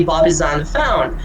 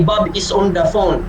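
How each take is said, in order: First: "Bob is on the phone" stepping down, falling on "phone"; walk each word down the staircase to a falling "phone"; staircase intonation. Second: "Bob is on the phone" in a flat, foreign-sounding tune; wrong intonation. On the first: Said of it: "So we say". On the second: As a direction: say it wrong, without the staircase steps. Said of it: "We don't say". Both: Shown as a demonstration.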